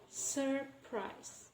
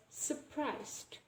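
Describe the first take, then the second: First: Surprise split as "sur... prise", softer; R sounded. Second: Surprised as "suh-prized"; dropped first R. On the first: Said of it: "there is actually this R sound". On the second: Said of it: "we don't pronounce the R sound". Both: Shown as a demonstration.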